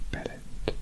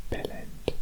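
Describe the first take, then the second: The two takes are said the same way.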